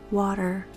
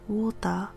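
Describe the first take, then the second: First: It is said in a native English accent. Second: It is said in a Japanese accent. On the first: "first in English" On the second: "in the Japanese accent"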